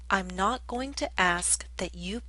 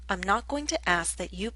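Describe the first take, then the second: First: It is spoken at a slower pace. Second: It is spoken at a faster pace.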